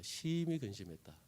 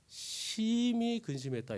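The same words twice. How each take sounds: First: Said in the usual way. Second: Very slow, heavy reading; drawn-out grief. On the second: Acted. Preacher reading how the disciples grieved, slow and heavy. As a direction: stretch out the sorrow. Reading scripture, then repeating.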